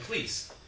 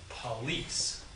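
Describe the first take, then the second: First: The first vowel is dropped completely. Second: The first vowel is reduced to a weak schwa. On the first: "who needs the vowel at all? You just say please" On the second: "unstressed vowels get reduced to schwas"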